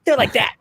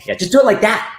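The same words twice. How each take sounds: First: Echoed high-pitched director impression; Zack Snyder. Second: High-pitched director impression; much higher, tossed-off mimicry of a director; Zack Snyder. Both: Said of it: "That's a good Zack Snyder impression".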